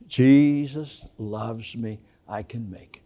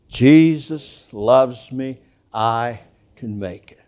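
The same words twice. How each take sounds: First: It is said more quietly than before. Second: It is said at full, normal volume. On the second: "Say it with me"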